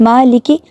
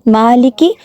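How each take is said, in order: The two takes are said the same way.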